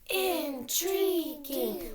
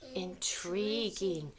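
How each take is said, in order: First: It is said loudly, like a cheer. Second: It is said in a plain, normal voice.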